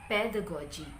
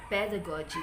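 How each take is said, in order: The two takes are said the same way.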